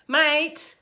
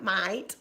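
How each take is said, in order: First: Higher, firm Australian MATE. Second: Low Australian MATE with a rising end. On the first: Retold or imitated. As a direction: say MATE as an emphatic Australian address. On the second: Shown as a demonstration. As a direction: show off the Australian MATE, lower and quieter. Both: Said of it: "that's very Australian of me".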